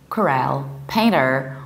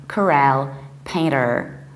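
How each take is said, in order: The two takes are said the same way.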